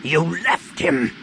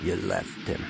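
First: Slow, higher, forceful accusation; angry growl. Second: Low, hushed accusation; quiet, calm. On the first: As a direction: drag out each word in anger. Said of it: "Han said with a growl". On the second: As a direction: say it softly and low, dead calm. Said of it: "quietly, calmly". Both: A narrator's reading.

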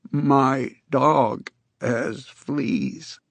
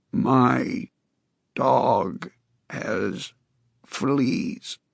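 First: Very slow, careful, lightly rough voice; clearer, more human rasp. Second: Halting, rasping word by word; hint of a rusty croak; strange grating voice. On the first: Acted. Con tries the test line again for Jacobs, clearer. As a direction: say it slowly as the voice comes back. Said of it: "the words were clearer now, and more human". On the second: A narrator's reading. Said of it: "Con said in his strange, grating voice".

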